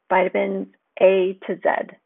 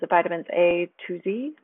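First: The last letter is said as zed, Australian-style. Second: The last letter is said as zee, American-style.

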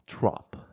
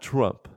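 First: The vowel sounds like the o in top. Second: The vowel sounds like the u in cup. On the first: The speaker calls it right. "instead of the U, it's an O" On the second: The speaker calls it wrong. "Not Trump"

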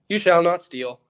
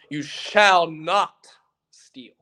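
First: It is said quickly and casually. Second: It is said slowly and deliberately. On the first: It sounds like it's not a big deal. The speaker calls it wrong. "I'm not going to say" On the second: It sounds serious and important. The speaker calls it right. "No, it's"

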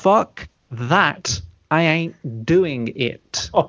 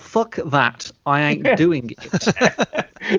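First: The phrase is spoken slowly and deliberately. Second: The phrase is spoken at a normal pace.

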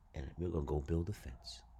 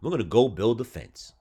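First: It is said at normal volume. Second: It is said louder.

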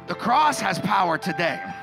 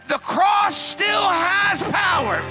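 First: It is said in a plain, ordinary tone. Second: It is said with strong, commanding authority.

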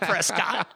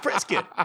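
First: The name is said with an outsider's pronunciation. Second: The name is said with the local pronunciation. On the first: The speaker calls it wrong. "It's not Prescott" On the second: The speaker calls it right. "It's Prescott"

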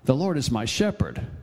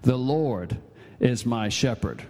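First: The stress falls on the word shepherd. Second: The stress falls on the word Lord.

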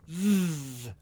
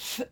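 First: The th sound is made with voice. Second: The th sound is made without voice. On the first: "which is a voiced dental fricative" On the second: "only without the voice I just did"

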